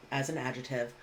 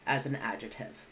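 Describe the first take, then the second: No difference in how they are said.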